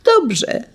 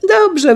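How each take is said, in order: First: Put-on little girl agreeing. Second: Put-on little girl agreeing, louder. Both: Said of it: "wołała siostrzyczka".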